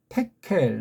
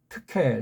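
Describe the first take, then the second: First: The first syllable uses a plain 'te' vowel. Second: The first syllable uses the unrounded 'teu' vowel. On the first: Others say it this way because they cannot make the sound. "걔네들은 이 발음이 안 되니까" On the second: This is the sound only Koreans can make. "트라는 발음은 우리만 할 수 있는 건데"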